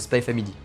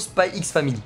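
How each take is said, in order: First: The letter X is left out entirely. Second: The letter X is spoken between the words. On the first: The speaker calls it right. "faire l'effort de plus le dire" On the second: The speaker calls it wrong. "des fois je dis toujours Spy X Family"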